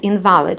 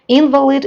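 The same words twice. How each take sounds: First: The stress is on the second syllable. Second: The stress is on the first syllable. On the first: Null or not valid. "it has a different meaning, like null" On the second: A person who is disabled. "if we place a stress in the first syllable"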